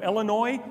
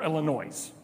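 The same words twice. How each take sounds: First: Illinois with a silent final s; local pronunciation. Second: Illinois with the final s sounded; outsider's pronunciation. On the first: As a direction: say Illinois ending on an open "noy". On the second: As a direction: say Illinois ending in "noise". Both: Shown as a demonstration. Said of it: "just by how they say the words".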